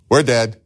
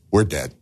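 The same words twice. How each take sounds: First: We're dead said louder, rising alarm; panicked repeat. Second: Low, hushed we're dead; quiet dread. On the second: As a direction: mutter we're dead in lower, soft dread. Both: Retold or imitated. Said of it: "They're like".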